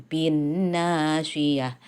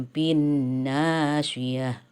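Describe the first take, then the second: No difference in how they are said.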